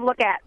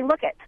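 First: "look at" with a clear a in "at"; "look at" as two words. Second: "look it" ending in a short i. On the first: Teacher gives the proper form, "look at" with clear "at". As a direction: say "look at" with "at", never "it". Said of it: "Directing them instead of". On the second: Teacher quotes colleagues' pet-peeve word, "look it" with short i. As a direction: say "look it", with "it" replacing "at". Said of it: "They say". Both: Shown as a demonstration.

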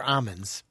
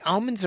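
First: Almonds with a silent L, "AH-munds"; "AH-monds", no L at all; almonds without L. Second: Almonds with the L sounded, "AHL-munds"; "AL-monds", L clearly there. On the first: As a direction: drop the L from almonds. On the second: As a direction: pronounce the L in almonds. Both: Shown as a demonstration. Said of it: "Do you say almonds or almonds?".

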